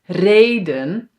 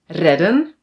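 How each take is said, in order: First: The first vowel is long. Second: The first vowel is short. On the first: The speaker calls it right. "We pronounce these words as ... So now it is long" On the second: The speaker calls it wrong. "it's just one letter that is short. We must pronounce this as"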